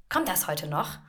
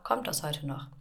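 First: Clipped, pointed question with a rising end; passive-aggressive. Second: Said in the usual way. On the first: Retold or imitated. Colleague's email question read as passive-aggressive. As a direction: read the colleague's mail as a veiled jab. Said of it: "ein ganz passiv-aggressiver Ton". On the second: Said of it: "eigentlich steht da nur".

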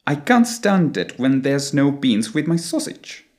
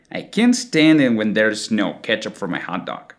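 First: British accent, open ah in can't and stand; British English. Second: American accent, can't and stand with stretched A; American long A. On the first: Teacher giving the complete British phrase, British English accent. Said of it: "the complete phrase would sound something like". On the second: Teacher putting both words together, American long A. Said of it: "expands the vowel sound the same way". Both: Shown as a demonstration.

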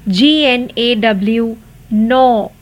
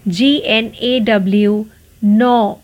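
Both takes have the same delivery.

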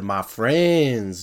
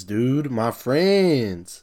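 First: Said in the usual way. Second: Very slow, stretched "my friends"; milk the words "my friends" like a mock heartfelt appeal; dragged-out plea. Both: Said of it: "He said".

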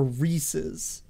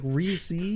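First: "Reese's" with a short, weak second syllable; Reese's as REE-siz. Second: "Reese's" with a long ee ending, like C's; Reese's as REE-seez. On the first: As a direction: say "Reese's" to rhyme with pieces. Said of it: "Or, or, or Reese's". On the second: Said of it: "Think of it as, like, C's". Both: Shown as a demonstration.

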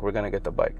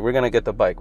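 First: Much softer, fading reassurance; quieter repeat. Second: Said in the usual way. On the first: Retold or imitated. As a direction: say it again under your breath to calm him. Dad reassures, repeats line.

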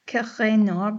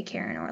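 First: "Kiranor" with a guttural R and rising end; attempted French pronunciation. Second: Said in the usual way. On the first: Shown as a demonstration. Host guessing how the French say the name, guttural R. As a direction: try "Kiranor" the French way, R back in the throat. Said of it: "maybe you say it". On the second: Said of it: "we're just gonna say Kiranor like Americans".

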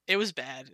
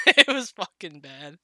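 First: Said in the usual way. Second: Laughing, drawn out and louder; slow, louder, through laughter; laughing emphasis. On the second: Real, not acted.

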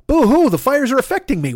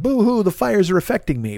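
First: High, hammed-up whining boo-hoo; really milk the self-pity, up high; whiny complaint. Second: Lightly mocking whiny quote; mock whine. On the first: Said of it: "But I'm gonna say this". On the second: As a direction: brush off the complaint with a half-hearted boo-hoo. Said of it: "this isn't me bitching and being like".

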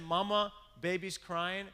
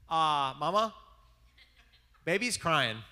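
First: Put-on a lighter replay of the toddler voice, a bit higher; little boy tattling, toned down; imitating little boy. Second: Put-on high, loud little-kid voice announcing the obvious; kid's piping call to Mama; imitating little boy. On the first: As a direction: kid voice calling Mama again. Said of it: "He said". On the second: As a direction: play the toddler tattling to mom. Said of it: "he goes like this".

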